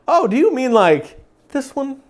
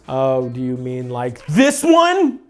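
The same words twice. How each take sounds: First: It is said in an overly sweet, loving way. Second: It is said in an intense, overdone way.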